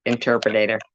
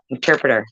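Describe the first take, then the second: First: Interpreter said as "interpretater" with an extra syllable; mispronounced word. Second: Said in the usual way. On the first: Shown as a demonstration. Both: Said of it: "I need an interpreter".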